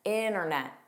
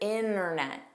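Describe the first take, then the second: First: The T after the N is dropped. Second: The same.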